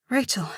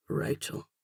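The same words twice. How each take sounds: First: Higher, breathy reply; shy, breathy introduction. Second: Soft, low rumble with a slight brogue; deep-voiced man murmuring her name; deep rumbling man. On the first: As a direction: manage the name in a breathy voice. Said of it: "my voice coming out breathy". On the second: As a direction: rumble the name quietly, rolling it. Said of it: "His deep voice rumbles my name". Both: A narrator's reading.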